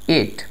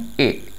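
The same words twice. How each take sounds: First: The t sound is clearly pronounced. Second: The t sound is dropped. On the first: "neutral accent में" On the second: "British accent में"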